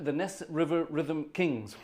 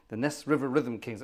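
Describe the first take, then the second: First: Slow, savoured announcement of the band name; grand announcement. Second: Said in the usual way. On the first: Shown as a demonstration. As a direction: roll out the name like a big reveal. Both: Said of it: "get ready for this, get your teeth in".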